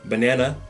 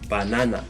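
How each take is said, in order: First: The vowels sound like English banana. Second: Every a is an open ah sound. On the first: "the word banana" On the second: "in Spanish becomes banana"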